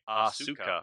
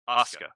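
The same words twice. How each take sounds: First: The middle u vowel is fully pronounced. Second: The middle u vowel is dropped. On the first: The speaker calls it wrong. "they don't say Asuka" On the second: The speaker calls it right. "They completely drop the uh, the U in the center"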